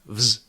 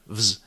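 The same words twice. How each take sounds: No difference in how they are said.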